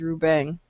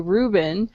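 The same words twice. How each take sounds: First: The name is said with Spanish sounds. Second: The name is said with English sounds. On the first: "all I hear is Ruben" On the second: "it would probably be, uh, be a little bit difficult for me to say Ruben"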